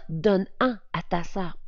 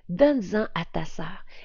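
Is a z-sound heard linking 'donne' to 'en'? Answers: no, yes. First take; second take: no; yes. First: No z-sound links the verb to 'en'. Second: A z-sound links the verb to 'en'. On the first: The speaker calls it wrong. "on ne dit pas" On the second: The speaker calls it right. "on entend bien le S"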